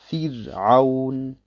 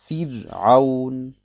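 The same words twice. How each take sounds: No difference in how they are said.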